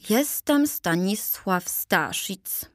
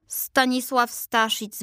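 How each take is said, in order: First: First Staszic. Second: Second Staszic. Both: A narrator's reading. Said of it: "przedstawił się pierwszy".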